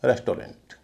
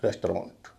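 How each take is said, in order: First: रेस्टोरेंट said with a clear O sound, resto-rent; common wrong version. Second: रेस्टोरेंट with a short A sound, rest-ra-nt; a-sound version. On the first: Teacher shows the common O pronunciation to students. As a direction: demo the way most people say रेस्टोरेंट, with O. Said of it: "एयू का उच्चारण वे ओ समझते हैं". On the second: Teacher models the short A pronunciation for students. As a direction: say रेस्टोरेंट with a short neutral vowel. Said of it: "एयू का उच्चारण अ होता है". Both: Shown as a demonstration.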